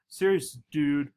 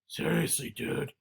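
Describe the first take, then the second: First: It is said in a normal speaking voice. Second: It is said in a deep, raspy put-on voice.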